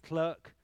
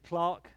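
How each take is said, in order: First: The word has a non-British pronunciation. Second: The word has a British pronunciation. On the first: "I believe you guys would say clerk" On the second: "Brits say clerk"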